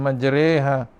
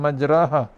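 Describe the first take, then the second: First: The long vowel leans toward an e sound. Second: The long vowel is a plain open a. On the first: "secara imalah" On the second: "iaitu tanpa imalah"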